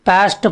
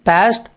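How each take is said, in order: Both takes have the same delivery.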